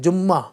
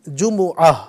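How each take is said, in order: First: Said as two syllables with a doubled m. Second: Said as three syllables with a full middle vowel. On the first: The speaker calls it wrong. "जो जुमा को जुम्मा बोलते हैं" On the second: The speaker calls it right. "असल है जुमुआ"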